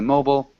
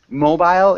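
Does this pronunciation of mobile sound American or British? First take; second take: American; British. First: It is said with an American pronunciation. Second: It is said with a British pronunciation. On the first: "In the U S, we'd say mobile" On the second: "the more British way of saying it"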